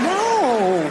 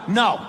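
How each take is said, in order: First: It is a teasing, playful refusal. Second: It is a firm, serious refusal.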